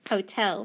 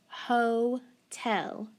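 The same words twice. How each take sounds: First: Said in the usual way. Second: HOTEL split slowly into "hoh", pause, "tel"; teacher breaking HOTEL into hoh ... tel; syllable by syllable. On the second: Shown as a demonstration. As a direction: sound out HOTEL in two separate syllables. Sounding out a word by syllables.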